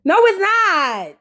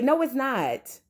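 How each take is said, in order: First: No, it's not slow and higher, pressing on "it's"; an emphatic correction aimed at the screen; emphatic denial. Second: A soft aside that rejects the praise; muttered denial. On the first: Repeats the rebuttal emphatically. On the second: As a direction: say No, it's not softly under the breath. Rebuts the praise of the producer. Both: Acted.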